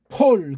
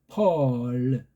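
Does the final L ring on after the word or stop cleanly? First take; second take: stops cleanly; rings on. First: The final L stops cleanly with no trailing sound. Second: The final L rings on with a trailing sound. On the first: "그냥 폴, 그래 버려야 되는데" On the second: "뒤에 꼬다리가 있어가지고 별도로 해주려고 하는 그 흔적이 나온다고요"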